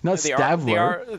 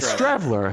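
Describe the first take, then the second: First: No R sound follows the opening 'St'. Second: An R sound follows the opening 'St'. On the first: The speaker calls it wrong. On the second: The speaker calls it right. "Yeah, Strevler"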